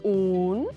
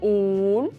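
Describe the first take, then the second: Both takes have the same delivery.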